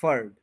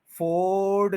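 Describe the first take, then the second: First: फर्ड as short, low furd; correct short vowel. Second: फोर्ड as a drawn-out FOOOARD; wrong long vowel. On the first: Teacher correcting learners, फर्ड as short furd. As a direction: clip फर्ड to a weak schwa. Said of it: "वो ई बन गया". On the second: Teacher rejecting the error, फोर्ड with long O. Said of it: "फोर्ड नहीं है ये". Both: Shown as a demonstration.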